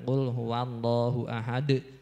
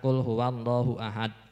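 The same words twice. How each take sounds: First: The final d is released with a short bounce. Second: The final d stops flat with no bounce. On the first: The speaker calls it right. "Jadi harus dipantulkan" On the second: The speaker calls it wrong. "jangan ... itu tidak ada qalqalahnya"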